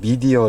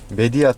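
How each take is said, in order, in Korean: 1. 이 단어는 'mee'로 시작하고 'dieo'로 끝납니다. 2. 이 단어는 'meh'로 시작하고 'dia'로 끝납니다. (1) "발음이 약간 틀린데요" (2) "메디아가 맞는 것 같습니다"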